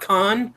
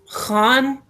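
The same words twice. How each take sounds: First: The first sound is a plain k sound. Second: The first sound is a rough throat sound. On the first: The speaker calls it wrong. "not khan" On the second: The speaker calls it right. "is how to pronounce it"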